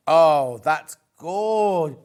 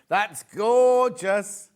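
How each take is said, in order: First: Suppressing hiccups. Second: Very slow, drawn-out through hiccups; suppressing hiccups. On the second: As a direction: stretch each word to hold in a hiccup. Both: Real, not acted. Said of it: "Oh, I've got hiccups".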